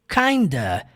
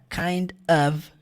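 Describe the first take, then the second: First: The words blend into one reduced word. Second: Both words are pronounced fully and separately.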